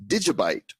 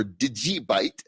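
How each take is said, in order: First: Said in the usual way. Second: Digibyte with the middle syllable as a stressed "jee"; alternative pronunciation. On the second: Shown as a demonstration. Host giving the other name some use, Digibyte said "dih-JEE-byte". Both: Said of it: "as some like to say".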